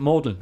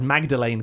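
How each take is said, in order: First: The name is said in a shortened local form. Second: The name is said fully, as it is spelled. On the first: This is how insiders say it. The speaker calls it right. "but here we pronounce it Magdalen" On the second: This is how an outsider would read it. The speaker calls it wrong. "you read it and it says Magdalene College"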